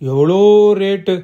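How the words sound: It is exclaimed with strong stress on எவ்வளோ. The speaker knows the price and remarks on it. "எவ்வளோங்கிற வார்த்தையில வந்து stress பண்ணி சொல்லும்பொழுது"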